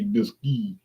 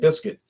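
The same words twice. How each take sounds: First: The word is pronounced the French way. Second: The word is pronounced the English way. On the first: This may be how the makers say it. "Maybe it's French. It might be biscuit" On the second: This is how the spelling looks to the speaker. "to me it looks like biscuit"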